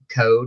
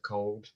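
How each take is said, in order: First: The word sounds like code, without an l. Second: The word is said with a clear l sound. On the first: "sometimes I'll say code" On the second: "instead of cold"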